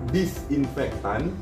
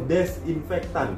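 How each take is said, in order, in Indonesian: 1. Kata itu diawali bunyi 'di'. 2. Kata itu diawali bunyi 'de'.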